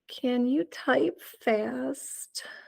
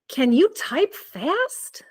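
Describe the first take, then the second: First: It is said in a sad tone. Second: It is said in a surprised tone.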